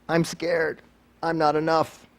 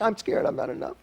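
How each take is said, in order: First: Said in the usual way. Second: Higher, softer and distant, like an echo returning. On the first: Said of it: "If we shout out". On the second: Shown as a demonstration. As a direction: let it sound like it bounces back from far away. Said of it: "that's what comes back".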